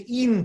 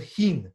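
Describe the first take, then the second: First: "in" starting on the vowel, no H; dropped H. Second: "hin" with an audible H at the start; H pronounced. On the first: Teacher shows rabbis' foreign accent, "in" without H. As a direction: say "in" with the H left off. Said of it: "they would say in Tzedek instead of hin". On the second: Teacher shows standard word, "hin" with its H. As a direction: sound the H in "hin". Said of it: "instead of hin with a he". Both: Shown as a demonstration.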